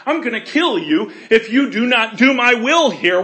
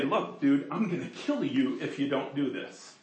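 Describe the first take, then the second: First: Loud, commanding voice of God with a laugh; booming threat. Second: Low, hushed menace from God; quiet threat. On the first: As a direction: proclaim it big and forceful. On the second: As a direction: murmur the threat softly, close and serious. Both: Pretend. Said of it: "Do you understand what I'm saying?".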